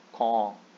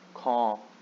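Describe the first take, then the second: No difference in how they are said.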